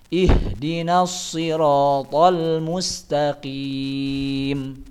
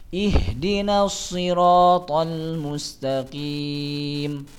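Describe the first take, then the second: No difference in how they are said.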